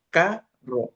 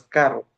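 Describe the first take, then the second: First: Carro split as ca-rro, higher first syllable. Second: Said in the usual way. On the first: Shown as a demonstration. Teacher sorting syllables into a table, word broken in two. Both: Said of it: "pues tiene dos sílabas".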